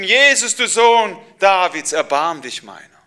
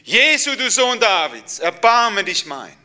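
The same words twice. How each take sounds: First: Loud, high cry for mercy; calling out. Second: High, loud desperate cry, slowing at the end; louder shout. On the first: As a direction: call across the crowd, pleading. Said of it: "Und da habe ich gerufen". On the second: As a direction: shout it over the crowd. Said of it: "Und ich habe noch lauter geschrien". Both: Acted.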